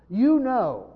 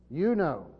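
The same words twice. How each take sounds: First: YOU punched hard and higher; emphatic "You know" with a heavy YOU. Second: Said in the usual way. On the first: Shown as a demonstration. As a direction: stress "You know" strongly, hitting you. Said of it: "Very emphatic in the Greek". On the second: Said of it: "Very emphatic".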